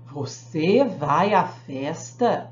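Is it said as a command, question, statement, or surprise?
surprise. It is said with an astonished, surprised tone. The speaker is amazed that the listener is going. "de espanto"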